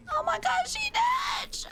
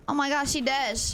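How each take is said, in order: First: "Oh my gosh, she dead" shrieked very high, then a whisper; shrieking squeal. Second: Said in the usual way. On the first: Acted.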